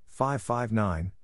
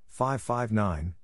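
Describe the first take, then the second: No difference in how they are said.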